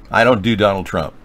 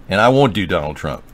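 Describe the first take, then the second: First: "don't" hit firmly, falling; stress on don't. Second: "won't" hit firmly, falling; stress on won't. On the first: Host flatly refuses the impression, stressing don't. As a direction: lean hard on "don't". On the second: Host doubles down on refusing, stressing won't. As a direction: lean hard on "won't". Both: Real, not acted.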